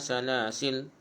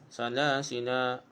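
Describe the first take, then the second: First: It ends on a stopped l sound. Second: It ends with a vowel held for two counts. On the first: "Kita mati waqaf sukun lam" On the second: "jadi ma asli jadi dua harkah lah"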